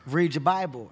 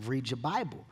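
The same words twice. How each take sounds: First: A louder, insistent mom order; mom's firm order. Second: Said in the usual way. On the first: Retold or imitated. Imitating mom insisting he read his Bible, louder. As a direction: plant your feet and repeat the order. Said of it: "and she's like". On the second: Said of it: "And she's like".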